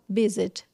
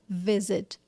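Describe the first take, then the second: First: The word begins with a B sound. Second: The word begins with a V sound. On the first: "ela falava visit com B" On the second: "ela não falava visit"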